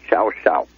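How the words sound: It is pronounced the Argentine Spanish way. "but in Argentine Spanish, it's"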